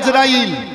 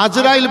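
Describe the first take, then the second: First: The name begins with an 'a' vowel. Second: The name begins with an 'a' vowel.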